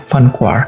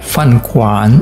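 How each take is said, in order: First: The last word ends with an r sound. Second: The last word ends with an n sound. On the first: "kalau tambahkan er ya ... bacanya fan kuar" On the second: "fan kuan itu kan restoran ya"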